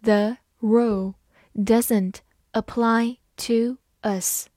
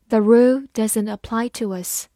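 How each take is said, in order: First: Slow, careful classroom read; slow teacher demo. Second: Said in the usual way. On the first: Shown as a demonstration. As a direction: read it slowly word by word. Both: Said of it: "好，慢慢来读".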